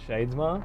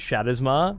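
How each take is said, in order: First: The name has two syllables, with shades. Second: The name has three syllables, with shadow. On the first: "not Shadesmar" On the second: "it just seems so natural to me that it is Shadowsmar"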